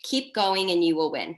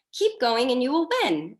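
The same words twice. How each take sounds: First: Said in the usual way. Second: High, loud, cheery cheer-on; Katie Harlan cheery. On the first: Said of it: "She said it so, like, so cheery". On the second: Retold or imitated. Coach imitating a leader's motto to her team, cheery. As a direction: chirp it brightly, pitched up and louder. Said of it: "so cheery".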